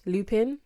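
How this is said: The name has an English pronunciation.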